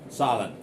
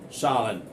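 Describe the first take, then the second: Both takes have the same delivery.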